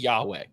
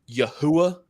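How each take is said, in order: First: The name is said with two syllables. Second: The name is said with three syllables. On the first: The speaker calls it right. "This is the this is Yahweh" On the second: The speaker calls it wrong. "you're not even close to pronou pronouncing that right"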